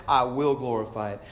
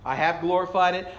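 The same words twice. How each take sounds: First: "will" leaned on, then falling lower; stress on will. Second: "have" set firmly against "will"; stress on have. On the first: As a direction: press on "will", then settle down. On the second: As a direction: lean on "have" in "I have glorified it". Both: Acted. Contrasts past with future promise.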